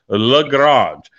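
The name is said with a French pronunciation.

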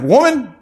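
The word sounds curt and rude. He is brushing her off rudely. The speaker calls it wrong. "He wasn't saying this in a disrespectful way. He wasn't saying like"

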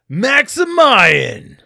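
It is said in an exaggerated anime-style voice. The speaker calls it wrong.

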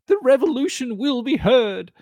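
It sounds confident and assured.

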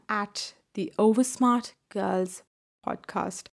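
It is said in an imitated British politician's accent.

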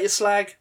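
It is said in a light, joking tone. It is friendly banter, not an insult. "If you say it in a jokey way"

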